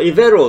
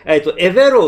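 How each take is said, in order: First: The name begins with an 'i' sound. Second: The name begins with an 'e' sound. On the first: "イベロって発音する人といる" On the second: "エベロって発音する人と"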